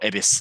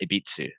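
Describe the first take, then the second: First: The final u is dropped, ending on s. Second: A t sound is inserted before the final u. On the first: "you pronounce the U" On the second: "some people put T's in there too"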